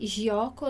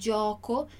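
First: The first consonant is a Portuguese-style G sound. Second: The first consonant is the Italian G sound. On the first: The speaker calls it wrong. "esse gioco nunca vai ser G, gioco, não" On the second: The speaker calls it right. "Gioco, gioco. Dillo chiaro"

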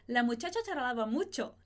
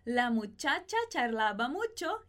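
First: The sentence is spoken at a faster pace. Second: The sentence is spoken at a slower pace. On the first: "Y un poquito más rápido" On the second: "Repete comigo"

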